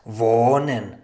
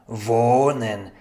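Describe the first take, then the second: No difference in how they are said.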